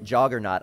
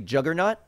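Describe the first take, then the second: First: The first syllable has the vowel of 'jaw'. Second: The first syllable has the vowel of 'jug'. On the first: This is how the speaker has always said it. The speaker calls it wrong. "I've always said it Juggernaut. ... it's spelled like J A U" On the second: This is how other people say it. The speaker calls it right. "People say Juggernaut?"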